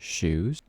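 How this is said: The word is said with one syllable.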